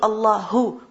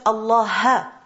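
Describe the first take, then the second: First: The word ends with a u vowel. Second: The word ends with an a vowel. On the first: The speaker calls it right. "as opposed to Allahu" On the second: The speaker calls it wrong. "if you read it as Allaha"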